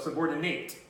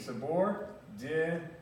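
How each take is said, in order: First: The last syllable sounds like 'nate'. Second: The last syllable sounds like 'net'. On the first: It is the verb form. "this one is pronounced the way it looks" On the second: It is not the verb form. "it's spelled with an A, but it's pronounced with it sounds pronounced like an E"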